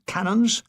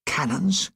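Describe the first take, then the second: First: Higher rising disbelief; incredulous. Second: Said in the usual way. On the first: Retold or imitated. Gunner scoffing at Eisenhower's word, incredulous rise. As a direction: repeat it, outraged at the word. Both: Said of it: "What kind of cannons are these?".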